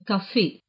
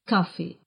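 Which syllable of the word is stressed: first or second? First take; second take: second; first. First: The stress is on the second syllable. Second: The stress is on the first syllable. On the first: "с ударением на втором слоге" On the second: "с ударением на первом слоге"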